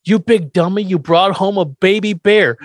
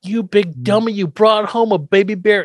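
First: Louder, higher mock scolding; a hint of a cranky old man; playing Grandpa, scolding Herman; quoting Grandpa. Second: Higher, mock scolding repeat; lightly voiced cranky grandpa; relishing the bad line; quoting Grandpa. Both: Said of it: "But Grandpa goes".

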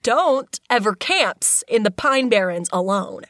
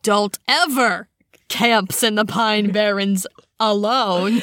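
First: Slow, heavy stress on "Don't"; "Don't" leaned on, drawn-out read; different inflection. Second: Slow with stress on "ever", rising end; "ever" punched, line ends on a rise; different inflection. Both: Shown as a demonstration. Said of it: "one more time, different inflection".

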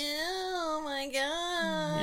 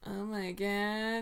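First: Mock nasal whine; high nasal put-on voice. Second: Low manly bass. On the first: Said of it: "not so nasally". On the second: Pretend. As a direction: put on a manly, lower voice. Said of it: "that's more like you".

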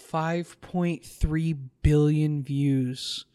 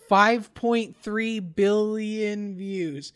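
First: "five point three billion views" drawn out word by word; slow, deliberate stress on "five point three billion views"; emphatic slow figure. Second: "five point three billion views" higher, louder and drawn out; high, emphatic, slow "five point three billion views" to drive it home; insistent repeat. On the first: Stating a staggering figure, first take. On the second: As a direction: hammer "five point three billion views" slowly at raised pitch and volume. Repeating the figure after listener's disbelief. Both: Real, not acted.

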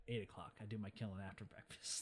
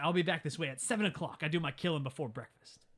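First: Much lower and softer revised threat; low grudging mutter. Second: Said in the usual way. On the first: Retold or imitated. Retelling the villain revising the hour, low quiet mutter. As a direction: mutter it under the breath, imitating a villain.

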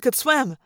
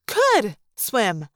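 First: Said in the usual way. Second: COULD drawn out, with a pause before swim; amazed emphasis on the word could; stress on COULD. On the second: A narrator's reading. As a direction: lean hard and long on could. Discovery that elephant could after all.

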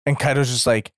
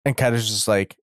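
No difference in how they are said.

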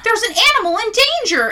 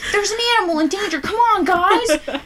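First: High, loud heroic alarm call; cartoon rescue hero. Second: High and loud, rushed then stretched, through laughter; laughing cartoon hero. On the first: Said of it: "You're like Paw Patrol". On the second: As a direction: replay the rescue call while cracking up. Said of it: "Or like the, the Octonauts".

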